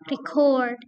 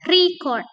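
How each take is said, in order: First: The stress is on the second syllable. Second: The stress is on the first syllable. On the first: It is a verb. "stressnya ada pada second syllable" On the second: It is a noun. "stress pada first syllable such as record"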